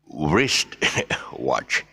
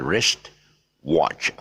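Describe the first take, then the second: First: A W sound is said before 'rist'. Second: No W sound is said before 'rist'. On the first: The speaker calls it wrong. "So it is not pronounced as the wrist watch" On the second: The speaker calls it right. "the W is silent for the wrist"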